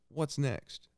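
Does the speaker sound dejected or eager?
eager. It sounds upbeat and eager, full of curiosity. The person is curious about what they can do. The speaker calls it right.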